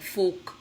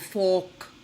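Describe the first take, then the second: First: The vowel is said with a less open mouth. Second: The vowel is said with a fully stretched mouth. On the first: The speaker calls it wrong. "If you don't feel that, then you'll say things like fork" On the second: The speaker calls it right. "for fork"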